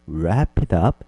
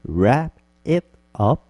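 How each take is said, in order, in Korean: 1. 단어들이 연결된 소리로 부드럽게 이어져 발음돼요. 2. 단어들이 천천히 따로따로 발음돼요. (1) "부드럽게" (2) "천천히 하면"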